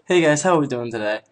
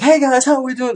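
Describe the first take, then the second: First: It is said at a calmer, quieter level. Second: It is said very loudly and energetically.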